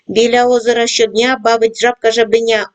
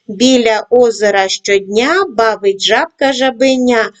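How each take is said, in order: First: It is read at a fast pace. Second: It is read at a moderate pace. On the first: "кожного разу пришвидшуємо темп" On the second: "кожного разу пришвидшуємо темп"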